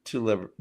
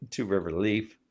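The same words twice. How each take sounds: First: Liver said with an L, a quick stumble on the name; Two Liver blurted out by mistake; slip of the tongue. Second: Said in the usual way. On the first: Real, not acted. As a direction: trip over Liver before correcting it.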